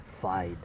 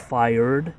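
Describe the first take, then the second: First: "fied" for fired, Boston style; soft, low "fied" with the R left out; R dropped from fired. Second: Said in the usual way. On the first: Shown as a demonstration. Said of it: "you just say fied". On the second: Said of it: "instead of fired".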